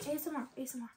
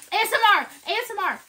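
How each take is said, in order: First: Soft, lowered ASMR voice; dropping softer on each repeat; hushed ASMR. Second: High, loud ASMR announcement; playful high-pitched shout; loud mock ASMR. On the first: Pretend. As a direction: say it quietly, like real ASMR. Same words again, now hushed. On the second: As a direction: call it out loudly, playfully. Showing off crunch for viewers.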